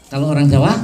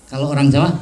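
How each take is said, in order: Both takes have the same delivery.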